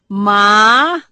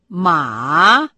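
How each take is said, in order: First: The pitch rises from mid to high. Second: The pitch dips low, then rises. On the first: It means hemp. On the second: It means horse.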